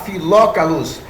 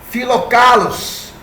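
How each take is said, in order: First: The stress is on the third-to-last syllable. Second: The stress is on the second-to-last syllable. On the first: "Ou se você quiser falar Filócalos, mas não tem nenhuma acentuação" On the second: "eu preferi pronunciar como está escrito"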